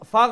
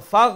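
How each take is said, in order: The two takes are said the same way.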